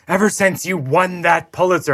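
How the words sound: It is said in an angry tone.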